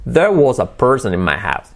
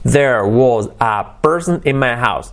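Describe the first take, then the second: First: The words are joined smoothly into each other. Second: The words are said separately, not joined.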